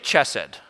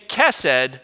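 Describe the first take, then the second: First: The word begins with a ch sound. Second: The word begins with a k sound. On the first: The speaker calls it wrong. "Just don't say chesed" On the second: The speaker calls it right. "or you can say kesed with a k"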